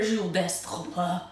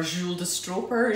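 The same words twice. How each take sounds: First: Stroper said with a throaty French r; put-on French pronunciation of Stroper, unsure; French-style attempt. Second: Said in the usual way. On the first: Shown as a demonstration. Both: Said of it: "I don't know".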